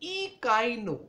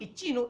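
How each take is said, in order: First: It is said with a 'k' sound. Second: It is said with a 'ch' sound. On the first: The speaker calls it right. "It is इकाइनो" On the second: The speaker calls it wrong. "It is not इचिनो"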